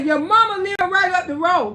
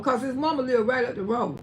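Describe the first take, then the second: First: Louder, pointed scolding; scolding son. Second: Said in the usual way. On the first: Retold or imitated. Mother scolds her son about his girlfriend, loud and pointed. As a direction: tell him off, leaning on mama. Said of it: "I say". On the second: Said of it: "aside explaining the quote".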